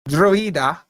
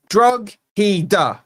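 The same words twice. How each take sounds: First: Drogheda as DRO-eda, silent gh; Drogheda without the G. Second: DROG-heda, hard G sounded in the middle; Drogheda with the G. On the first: Mocking commenters' Irish pronunciation, G dropped. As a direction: drop the G in Drogheda. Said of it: "Don't give me the Drogheda". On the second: Defending his spelling to commenters, G pronounced. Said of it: "You don't want the G pronounced". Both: Shown as a demonstration.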